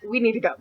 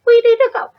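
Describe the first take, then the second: First: Said in the usual way. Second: Shrill jump in pitch, louder; urgent high-pitched cry to leave; high panicked yelp. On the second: Retold or imitated. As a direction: squeal it in a panic.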